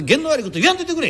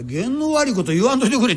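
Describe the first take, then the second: First: Quick, higher quoted protest; customer's retort. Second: Said in the usual way. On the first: Retold or imitated. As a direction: fire back the superstitious plea fast. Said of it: "言わんといてくれちゅうたかて". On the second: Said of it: "ちゅうたかて".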